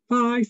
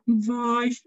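First: Said in the usual way. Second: "Weiss" with a long buzzing V before the vowel; elongated opening consonant. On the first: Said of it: "instead of going". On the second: Shown as a demonstration. Conductor shows another way to bring out "Weiss", long V. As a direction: start the V of "Weiss" early and hold it. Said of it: "sort of an elongated consonant beforehand".

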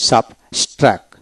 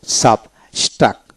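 The two takes are said the same way.

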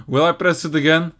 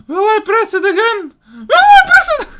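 First: Said in the usual way. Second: Excited rising. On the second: Real, not acted. Gamer giddily asks himself about pressing the button again. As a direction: build up giddy excitement.

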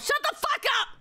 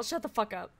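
First: Very high squealed yell; indignant shriek. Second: Softer, subdued dismissal. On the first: Streamer silencing a teasing chat message, shrieking. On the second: Streamer answering teasing chat, in a subdued retort. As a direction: brush the teasing off quietly. Same retort, said low-key. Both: Real, not acted.

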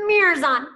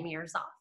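First: Mirrors on called out loud. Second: Mirrors off said much softer; soft signal. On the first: Teacher showing the start signal, loud call. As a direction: announce it like a game signal. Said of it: "So when I say". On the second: Teacher showing the stop signal, soft and quiet. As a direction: drop it to a hush. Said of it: "until I say". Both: Shown as a demonstration.

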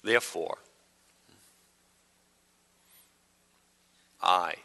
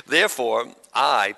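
First: Painfully slow, low-key Bible reading; exaggerated slow reading. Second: Said in the usual way. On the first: Shown as a demonstration. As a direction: read it absurdly slowly, long pause between words. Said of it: "I'll read slow". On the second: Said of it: "A little faster than that".

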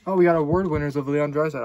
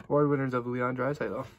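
First: Excited. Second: Said in the usual way. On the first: Real, not acted. Reveals an award winners card.

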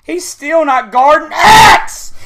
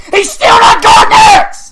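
First: Slow, loud, rising in pitch; building frustrated shout; exasperated yell. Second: Very high, very loud raging shriek; real hysterical gamer rage; full scream. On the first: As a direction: drag it out in angry disbelief. Raging, first take before screaming. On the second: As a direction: scream it at the top of your voice. Repeats it as a scream. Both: Real, not acted.

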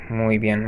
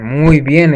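First: Said in the usual way. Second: Excited praise. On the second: Real, not acted.

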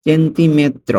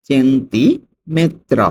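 First: Said in the usual way. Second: Very slow "সেন্টিমেত্র", split after "centi"; slow dictation of "সেন্টিমেত্র" for learners; broken into parts. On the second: Shown as a demonstration. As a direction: draw out "centi", pause, then "metro". Teacher repeats word by parts.

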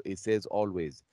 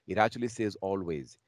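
First: Said in the usual way. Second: "always" leaned on with rising force; a stronger, louder "always"; stress on always. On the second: Shown as a demonstration. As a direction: press harder on "always".

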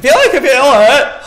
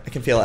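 First: Loud, high, frantic yelp; mounting panic. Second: Said in the usual way. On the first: Real, not acted. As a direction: cry out as if the scare is coming. Panic rising, scare expected.

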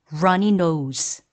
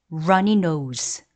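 No difference in how they are said.

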